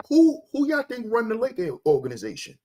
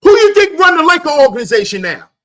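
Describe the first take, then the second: First: Said in the usual way. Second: High, loud, rapid-fire demand; real shout, high and fast; shouted question. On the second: Real, not acted. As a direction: fire the question out at full volume. Ranting loudly at his viewers.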